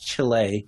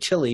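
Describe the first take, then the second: First: The name is said the Spanish way. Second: The name is said the American English way. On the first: This is how the country's own people say it. "I think it is Chile" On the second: This is how most Americans say it. "most Americans, we say Chile"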